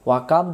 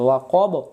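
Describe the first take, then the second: First: The vowel after the k is thin and open. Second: The vowel after the k is heavy and rounded. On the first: The speaker calls it wrong. "ওয়াকাব যদি আমরা পড়ি ভুল হয়ে যাবে" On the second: The speaker calls it right. "কফ জবর অ"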